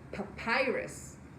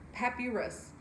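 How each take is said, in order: First: The word is said as puh-pie-rus. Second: The word is not said as puh-pie-rus. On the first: The speaker calls it right. "the correct pronunciation of this word is actually papyrus" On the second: The speaker calls it wrong. "The first thing I want to see is papyrus"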